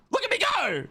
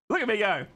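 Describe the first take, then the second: First: Very high, squealed boast; excited crowing. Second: Said in the usual way. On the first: Real, not acted. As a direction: show off in a high, giddy cry. Crowing, then repeated more calmly.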